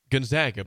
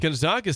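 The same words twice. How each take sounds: First: The middle vowel is a flat 'a', like 'zag'. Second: The middle vowel is an open 'ah', like 'zog'. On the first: The speaker calls it right. "but it is Gonzaga" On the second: The speaker calls it wrong. "sounds like, you know, fancier"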